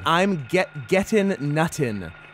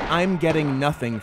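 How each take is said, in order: First: The T sounds are hard and clearly pronounced. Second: The T sounds are soft and not clearly pronounced. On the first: The speaker calls it right. "The T's harder" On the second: The speaker calls it wrong. "we weren't enunciating because it's not I'm getting nothing for Christmas"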